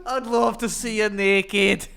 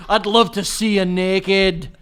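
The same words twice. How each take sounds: First: High, loud, slow Scottish parody; mock Scottish accent. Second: Loud, slow, drawn-out Scottish come-on; mock Scottish accent. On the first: Co-host echoes the failed seduction, high loud Scottish accent. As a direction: stretch every word in higher, broad Scots. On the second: Showing it doesn't work for anyone, loud Scottish accent. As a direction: belt it slowly in broad Scots. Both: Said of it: "Scottish is bad".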